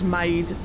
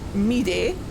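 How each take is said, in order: First: The name is said with English vowels, like 'maid'. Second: The name is said with Japanese-style vowels. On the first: "otherwise her name is Maid" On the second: "I will be using Japanese pronunciation"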